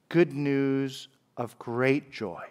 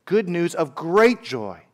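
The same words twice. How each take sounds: First: Softer, slow, savouring each word; Good news of great joy, dicho despacio y bajito como con asombro; hushed and slow. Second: Said in the usual way. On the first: Shown as a demonstration. Savouring the angel's phrase.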